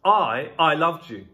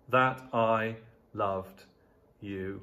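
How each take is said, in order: First: "I" said twice, louder, the first one punched; stress on I. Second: Slow and measured, no extra weight on I; slow reading. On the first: Preacher showing the Greek emphasis, stress on "I". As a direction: lean hard on "I" before loved you. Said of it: "But the word "I" is added". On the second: Preacher reading the verse to his church, slow and measured. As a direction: let each word land slowly. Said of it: "Literally, this phrase means". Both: Shown as a demonstration.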